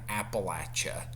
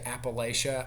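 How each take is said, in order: First: The third syllable sounds like 'latch'. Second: The third syllable sounds like 'lay'. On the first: The speaker calls it right. "which is how uh, we were taught that it was pronounced" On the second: The speaker calls it wrong. "If you say Appalachia"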